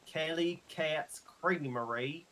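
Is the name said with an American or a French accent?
American. It is said with an American accent.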